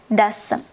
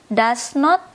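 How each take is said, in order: First: It is said as one contracted word. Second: It is said as two full separate words. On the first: "Bacanya doesn't" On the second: "Does not ini bisa disingkat"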